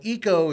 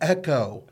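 First: The first syllable has a long e, like economical. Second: The first syllable has a short e, like echo. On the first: "Eco is sort of like economical" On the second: "so Echo is a repeating sound"

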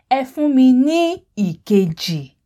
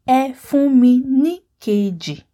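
First: The vowel before keji is pronounced. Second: The vowel before keji is dropped. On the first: The speaker calls it wrong. "if I said efuminikeji, it's kind of strenuous" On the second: The speaker calls it right. "The letter E at the beginning of ikeji is dropped and you just have keji"

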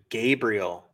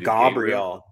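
First: The name is pronounced in a plain, ordinary way. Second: The name is pronounced in a fancier, elaborate way.

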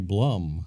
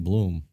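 First: The vowel is short, as in 'book'. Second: The vowel is long, as in 'boot'. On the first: The speaker calls it wrong. "or if you say Blum. Don't say Blum" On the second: The speaker calls it right. "I say Bloom"

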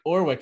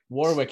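First: The word is said with the first W dropped. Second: The word is said with its W sounds pronounced. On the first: "no, not the first W" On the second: "He's like, no, drop the W"

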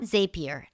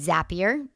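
First: The first syllable does not sound like zap. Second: The first syllable sounds like the word zap. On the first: The speaker calls it wrong. "not Zapier" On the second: The speaker calls it right. "It's Zapier, as in zap"

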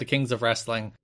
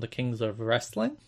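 First: It is said with lively excitement. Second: The pitch rises at the end like a question. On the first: "You said that with too much excitement" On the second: "He up-talked at the end"

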